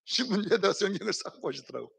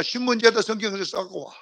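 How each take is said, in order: First: Laughing through it, softer. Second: Said in the usual way. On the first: Real, not acted. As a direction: laugh while retelling. (웃으면서 말하듯) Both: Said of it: "repeated with a laugh".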